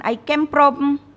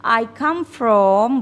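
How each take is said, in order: First: "came" and "from" said as "kem" and "prom"; wrong version. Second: "come" slowly as "kam"; slow correct model. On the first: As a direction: mimic the mistake "I came from". (tirukan ucapan salah "I came from") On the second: (ucapkan "I come from" pelan dan benar) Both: Shown as a demonstration.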